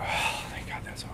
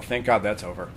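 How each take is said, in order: First: Voiceless, sighing whisper of relief; relieved sigh. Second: Said on the in-breath, no sigh; clipped, holding the breath; quick tense breath-in. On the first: Teacher showing a relieved long exhale, whispered. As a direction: let it all go on the breath. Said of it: "usually they will go". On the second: Teacher showing the rare tense way, without relief. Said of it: "Very rarely does somebody go". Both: Shown as a demonstration.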